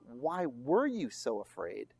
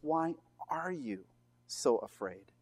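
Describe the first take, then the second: First: Slow question leaning on "were", rising at the end; stress on were. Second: Slow "are you", then a pause and a drop on "so afraid"; stress on are. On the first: Preacher showing what Mark did not write, stressing "were". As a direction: ask it with weight on the past-tense "were". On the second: Preacher showing Mark's present tense, stressing "are". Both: Shown as a demonstration. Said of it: "emphasis here is on the present tense".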